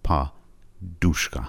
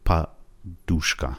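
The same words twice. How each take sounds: First: The stress is on the second syllable. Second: The same.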